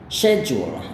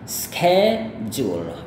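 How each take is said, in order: First: It begins with an sh sound, British style. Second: It begins with an sk sound, American style. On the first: "kalau gaya British dia itu she, jadi bukan bukan sk" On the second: "Cara melafalkan kata ini gaya Amerika itu seperti ini"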